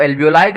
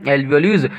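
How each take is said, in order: First: Alveoli ending in "lie"; alternative pronunciation. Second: Alveoles ending in a long "leez"; first pronunciation. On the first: Teacher showing students how some people say it, "lie" ending on alveoli. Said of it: "कुछ लोग इसको alveoli कहते हैं". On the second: Teacher giving students the term he uses, "leez" ending on Alveoles. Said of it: "तो pronunciation पे बहुत ज्यादा". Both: Shown as a demonstration.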